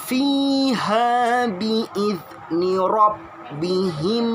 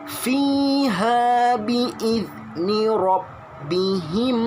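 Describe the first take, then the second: No difference in how they are said.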